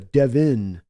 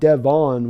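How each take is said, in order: First: The second syllable has an 'i' vowel. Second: The second syllable has a clear 'o' vowel. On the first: The speaker calls it right. "you pronounce the O with an an I sound" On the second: The speaker calls it wrong. "it's not Devon with the O"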